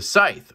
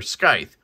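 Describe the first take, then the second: First: Scythe said as "sythe", no K sound; silent C. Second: Scythe said as "skythe", with a K sound; hard C. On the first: Reviewer unsure of the knife's name, scythe with silent C. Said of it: "You don't pronounce the, this, um, C". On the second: Reviewer offering his own version, scythe as "skythe". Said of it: "I say scythe". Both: Shown as a demonstration.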